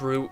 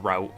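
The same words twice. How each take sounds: First: Said in a British accent, rhyming with boot. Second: Said in an American accent, rhyming with out. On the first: "But it's route, you American bastards" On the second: "or route if you're American"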